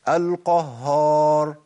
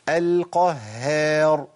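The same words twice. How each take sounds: First: The h is heavy, said with rounded lips. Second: The h is light, said with smiling lips. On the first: The speaker calls it wrong. "لانه هو بيثبت هيئة واحدة وهي التفخيم" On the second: The speaker calls it right. "محتاج هيئة شفتين"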